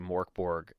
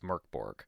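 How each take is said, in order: First: The first syllable sounds like 'mork'. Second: The first syllable sounds like 'merk'. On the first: The speaker calls it wrong. "I've been saying it wrong" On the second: The speaker calls it right. "and it's Merkborg"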